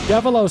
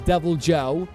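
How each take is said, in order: First: The J sound is left silent. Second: The J sound is clearly pronounced.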